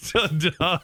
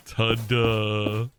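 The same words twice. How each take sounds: First: Deadpan ta-da, slight rise; lacklustre, underwhelmed reveal; unimpressed. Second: Flat, deadpan ta-da; unimpressed. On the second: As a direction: say it with zero enthusiasm. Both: Shown as a demonstration. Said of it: "Could you imagine it?".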